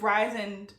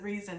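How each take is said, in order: First: The name does not sound like 'reason'. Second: The name sounds like the word 'reason'. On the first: This is how the speaker prefers to say the name. The speaker calls it right. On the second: This is how some other people say the name. The speaker calls it wrong.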